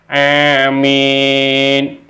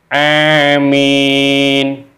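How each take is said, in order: Both takes have the same delivery.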